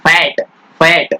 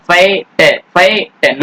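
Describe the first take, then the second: First: फैट in one beat, t joined straight on; unbroken single syllable. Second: फैट split, the final t cut off as its own beat; wrong-way फैट, a gap before the t; broken-up mispronunciation. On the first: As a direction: model फैट with one vowel and no gap. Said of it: "no". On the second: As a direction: break फैट into fay, then te. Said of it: "ऐसे बोलते हो क्या?". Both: Shown as a demonstration.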